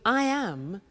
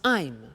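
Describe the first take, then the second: First: It is said as two full words. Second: It is said as one contracted syllable. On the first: "we contract the form so that I am becomes I'm" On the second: "when we speak in English, we contract the form"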